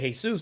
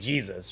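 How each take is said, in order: First: It is said with a Hispanic Spanish pronunciation. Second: It is said with an American English pronunciation.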